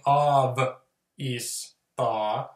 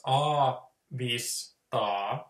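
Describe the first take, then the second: First: "av" then "is ta", split after the v; wrong breakdown "av is ta" with a break after av; wrong syllable split. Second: "a", "vis", "ta" as three separate syllables; right Finnish split "a, vis, ta"; correct syllable split. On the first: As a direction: chop it wrongly as "av", "is", "ta". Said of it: "we don't like saying". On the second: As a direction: break it into "a", "vis", "ta", each piece apart. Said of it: "So we break it down before it gets stupid". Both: Shown as a demonstration.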